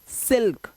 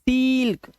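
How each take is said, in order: First: The vowel is short and quick. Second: The vowel is long and drawn out. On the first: The speaker calls it right. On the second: The speaker calls it wrong.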